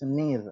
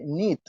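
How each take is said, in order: First: The word ends with a D sound. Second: The word ends with a T sound. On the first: The speaker calls it right. "it's need" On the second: The speaker calls it wrong. "with the T sound, he used in the verb need ... he say need"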